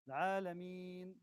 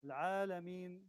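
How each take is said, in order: First: The long vowel is held for four beats. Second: The long vowel is held for two beats. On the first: "this is four" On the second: "this is two"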